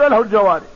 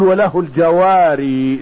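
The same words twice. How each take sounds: First: The last word ends without the long ee sound. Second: The last word ends with a long ee sound. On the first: "اكثر القراء اذا قرأوا في الوقف" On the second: "يثبت الياء في الوقف"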